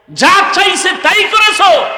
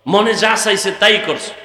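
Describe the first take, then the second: First: High, full-voiced preacher's shout; sudden high, ringing shout; shouted reproach. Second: Said in the usual way. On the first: Real, not acted. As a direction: hurl the accusation out at the crowd. Same reproach repeated as a shout.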